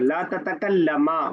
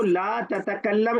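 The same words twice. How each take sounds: First: ततकल्लमा with a long final aa; dual alif ending. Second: ततकल्लम closed on a final m; singular verb ending. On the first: Teacher showing a student the dual, ततकल्लमा ending in long aa. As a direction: add a drawn-out aa to end ततकल्लमा. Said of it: "बस अलिफ लगा देंगे last में". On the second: Teacher showing a student the singular, ततकल्लम ending on m. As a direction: end ततकल्लम on m, no vowel after. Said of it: "is for singular". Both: Shown as a demonstration.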